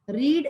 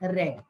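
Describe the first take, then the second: First: The vowel is long, as in 'seed'. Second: The vowel is short, as in 'bed'. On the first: It is the present tense. "प्रोनाउन्स्ड as रीड" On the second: It is the past tense. "Past tense मध्ये होऊन जातं तेव्हा ह्याला आपण रेड सुद्धा म्हणतो"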